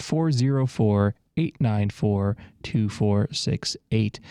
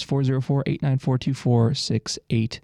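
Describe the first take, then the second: First: Slow, spaced-out phone number; slower repeat. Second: Number rattled off quickly; kinda fast. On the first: Radio host repeating the number for callers, slowly. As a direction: read the digits slowly, group by group. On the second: Radio host repeating the request line number, kinda fast. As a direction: run through the phone number briskly. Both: Real, not acted. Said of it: "I said that kinda fast".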